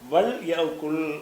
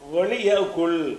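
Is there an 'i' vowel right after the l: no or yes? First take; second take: no; yes. First: The l has no vowel after it. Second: The l is followed by an 'i' vowel. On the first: The speaker calls it right. "வல் குல் எப்படி சொல்லணும்?" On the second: The speaker calls it wrong. "அப்படி சொல்லக்கூடாது"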